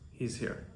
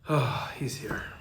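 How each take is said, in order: First: It sounds calm and relaxed. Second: It sounds negative and annoyed.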